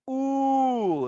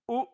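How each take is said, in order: First: The vowel is held for three beats. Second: The vowel is held for two beats.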